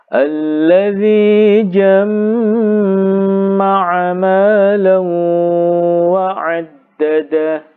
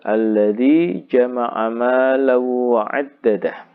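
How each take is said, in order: First: The m sound is doubled and held. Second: The m sound is short and single.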